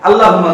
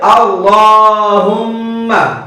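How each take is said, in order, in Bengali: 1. L এর উচ্চারণ হালকা ও পাতলা। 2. L এর উচ্চারণ ভারী ও মোটা। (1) "আল্লাহুম্মা না" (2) "এটা হবে আল্লাহুম্মা"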